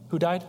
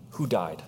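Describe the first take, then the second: First: "Who died?" with died stressed and rising; higher, pushing on "died" with a rising question. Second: "Who died?" with weight on Who, tune falling; plain question. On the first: Preacher re-asking the congregation, stress on "died". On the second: Preacher's first flat asking of "Who died?". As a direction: stress on "Who", falling at the end. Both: Shown as a demonstration.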